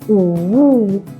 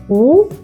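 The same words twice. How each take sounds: First: The pitch dips down and then rises. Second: The pitch rises like a question. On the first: "Third tone 三声" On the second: "Second tone 二声"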